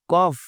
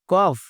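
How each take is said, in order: Both takes have the same delivery.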